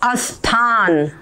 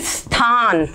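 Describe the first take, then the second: First: An extra a vowel is added before the word. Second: An extra i vowel is added before the word. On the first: "और कई लोग बोलते अस्थान" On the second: "इसको कई लोग तो बोलते हैं स्थान"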